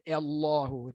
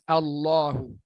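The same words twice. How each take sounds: First: The first vowel leans toward an 'e' sound. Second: The first vowel is a clear open 'a'. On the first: The speaker calls it wrong. "Jangan nak baca Allahu. Itu tak betul" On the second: The speaker calls it right. "Baris atas Allahu"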